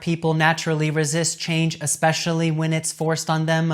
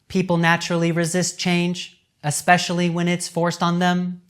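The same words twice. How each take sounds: First: It is read quickly without pauses. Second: It is read steadily with brief pauses. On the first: The speaker calls it wrong. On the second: The speaker calls it right. "I will speak this text with good pace, but with no tone or emphasis"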